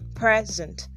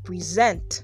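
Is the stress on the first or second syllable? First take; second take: first; second. First: The stress is on the first syllable. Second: The stress is on the second syllable.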